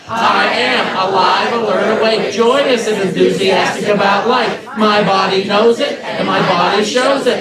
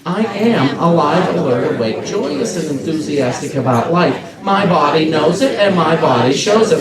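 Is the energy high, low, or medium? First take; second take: high; low. First: It is said with the highest, loudest energy. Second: It is said with calm, moderate energy.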